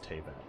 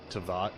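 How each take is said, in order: First: The first vowel is an 'ay' sound. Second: The first vowel is an open 'ah' sound. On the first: The speaker calls it right. "I know it's Teyvat because everyone says Teyvat" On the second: The speaker calls it wrong. "I keep saying like Tavat"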